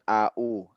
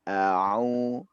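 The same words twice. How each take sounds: First: It has a sharp glottal stop like hamzah. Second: It is dragged with a throaty ain sound. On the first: The speaker calls it wrong. "jangan au. Kalau au itu berarti ada dua hamzah" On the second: The speaker calls it right. "Au dia agak diseret gitu"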